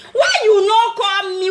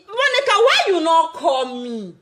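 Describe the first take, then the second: First: Mock crying plea. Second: Said in the usual way. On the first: Pleading with Monica to call, mock sobbing. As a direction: wail the question in mock grief.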